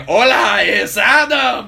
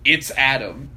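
First: Loud, high, drawn-out mock greeting; teacher's booming reading. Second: Said in the usual way. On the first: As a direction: imitate a hammed-up Spanish textbook shout. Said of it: "that was how he said it". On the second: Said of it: "was, like, saying".

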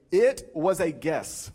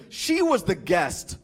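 First: Slow, spaced-out clarification; slow correction. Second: Slow, dead-earnest delivery. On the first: Explaining what the friend was trying to say, slowly. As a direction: spell out the intended meaning slowly. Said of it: "he was trying to say". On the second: Friend explaining himself after the meal, dead earnest. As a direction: say it slowly, in complete seriousness. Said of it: "with dead earnestness". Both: Retold or imitated.

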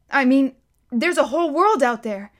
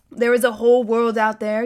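First: Put-on higher, wide-eyed boy voice on world; a boy marvelling at the world; wondering boy. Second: Calm guardian. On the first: Bod voiced, Silas echoes. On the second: Silas answers Bod's words. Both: A narrator's reading.

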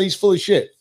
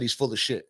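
First: Said aloud at normal volume; said out loud. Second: Muttered under his breath, much softer; quiet to himself. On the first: Telling himself again, now said aloud. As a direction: say it out loud and mean it. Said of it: "But I said". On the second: To himself after six months, softly muttering. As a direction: say it quietly, just to yourself. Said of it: "before I said". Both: Retold or imitated.

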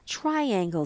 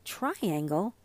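First: "Triangle" announced, tune coming down; plain statement of TRIANGLE. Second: "Triangle" softly queried, lifting on the last syllable; puzzled repeat of "Triangle", tune going up; questioning TRIANGLE. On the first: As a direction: say "Triangle" as a firm statement, falling at the end. Child calls out a word. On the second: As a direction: say "Triangle" as a question, rising at the end. Other child queries the word. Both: A narrator's reading.

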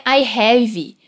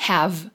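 First: "I have" with a final e sound, like "I havee"; teacher showing the wrong way, "I have" ending on an extra e sound; wrong: extra vowel after have. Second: "have" ending on a soft v with no vowel after it; right: silent final v. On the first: Teacher demonstrates the common mistake. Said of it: "E cuida com a pronúncia aqui. Não é". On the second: Teacher models the correct "have" for students. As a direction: clip "have" short, no e at the end. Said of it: "Termina com esse V mudo, sem o E no final". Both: Shown as a demonstration.

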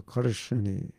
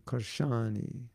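First: Said in the usual way. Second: Karshani with a long, open middle "shaa"; Polish-style Karshani. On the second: Shown as a demonstration. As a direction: say Karshani as kar-SHAA-nee, drawing out the middle. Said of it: "as they say in Poland".

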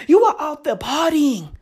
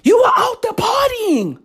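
First: Said in the usual way. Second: Shouted repeat. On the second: Real, not acted. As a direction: yell it the second time, pushing higher.

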